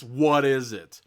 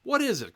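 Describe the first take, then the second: First: Very loud, emphatic outcry; alarmed exclamation. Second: Very high, loud query; exaggerated questioning. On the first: Reader faces the furry beast, loud mock alarm. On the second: Reader repeats the book's question, high and exaggerated. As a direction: squeal the question in mock bewilderment. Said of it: "Question mark, it says". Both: A narrator's reading.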